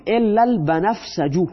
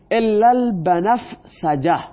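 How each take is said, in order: First: البنفسجو ending on a clear u sound; nominative ending. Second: البنفسجه said slowly with a final a sound; teacher drawing out "الا البنفسجه" with the ending a; accusative ending. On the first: Teacher giving students the nominative "الا البنفسجو". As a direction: end "الا البنفسجو" with u instead of a. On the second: Teacher showing students the accusative "الا البنفسجه", slow. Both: Shown as a demonstration.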